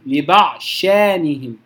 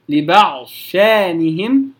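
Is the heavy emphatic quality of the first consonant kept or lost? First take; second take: lost; kept. First: The d merges fully into a doubled sh. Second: The d keeps its heavy quality before the sh. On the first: "أو الإدغام الكامل وهو يعني الأقرب والذي عليه العمل وهو الأشهر" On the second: "يفخم أو يبقي صفة الاستعلاء من الضاد ثم ينتقل للشين مباشرة"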